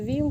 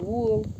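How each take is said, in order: First: The word is said with an 'i' vowel. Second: The word is said with an 'o' vowel. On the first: This is the standard form. "на віл кажуть" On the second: This is the local village form. "кажуть вол"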